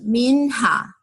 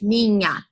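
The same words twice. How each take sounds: First: The nh is read like English letters. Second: The nh is a smooth palatal 'ny' sound. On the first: The speaker calls it wrong. "ela tentava ler com os tons que ela conhece em inglês" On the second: The speaker calls it right. "Esse nosso N H do português"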